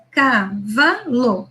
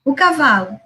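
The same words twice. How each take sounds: First: Cavalo drawn out slowly, one syllable at a time; syllable-by-syllable reading. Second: Said in the usual way. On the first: Shown as a demonstration. Teacher demonstrating a child's syllable reading, slow. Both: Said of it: "ela se ancora nas sílabas".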